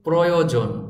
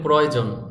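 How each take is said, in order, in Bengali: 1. শব্দটি সাবধানে ও নির্ভুলভাবে উচ্চারণ করা হয়েছে। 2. শব্দটি সহজ, সাধারণ ভঙ্গিতে উচ্চারণ করা হয়েছে।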